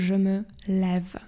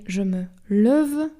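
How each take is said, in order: First: "je me lève" slow, with a clear open E in "lève"; slow, careful "je me lève" with an open è; correct open è. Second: "je me lève" with a dull closed vowel in "lève"; wrong pronunciation. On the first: Teacher models the right "je me lève" for students, slow and open. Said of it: "tylko je me lève". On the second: Teacher shows students the wrong "je me lève", closed vowel. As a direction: say "je me lève" the wrong way, without the open è. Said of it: "I mamy nie je me lève". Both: Shown as a demonstration.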